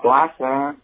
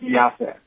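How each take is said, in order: First: The word has a clear l after p. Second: The l after p becomes a y-like glide. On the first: "de plaça" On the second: "en fem piaça ... la gent d'allí pronuncia així"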